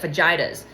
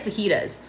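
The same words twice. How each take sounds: First: It has a strongly anglicized English pronunciation. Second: It has a mild English-speaker pronunciation. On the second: "because I say fajitas"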